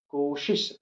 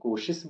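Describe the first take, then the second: First: It is said with the standard careful pronunciation. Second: It is said with the colloquial regional pronunciation. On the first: The speaker calls it right. "ये शुद्ध है" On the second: The speaker calls it wrong. "हम इसको कोशिश बोलते हैं"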